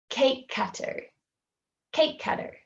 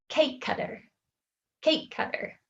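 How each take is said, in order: No difference in how they are said.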